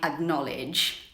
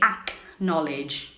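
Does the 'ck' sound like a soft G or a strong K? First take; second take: soft G; strong K. First: The 'ck' is a soft, G-like sound. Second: The 'ck' is a strong, hard K sound. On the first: The speaker calls it right. "it's more like a G sound" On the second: The speaker calls it wrong. "you're not supposed to make it super strong"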